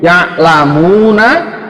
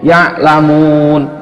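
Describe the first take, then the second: First: The final -na syllable is fully pronounced. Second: The word stops short without the final vowel. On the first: The reading continues without stopping. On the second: The reader stops at this word.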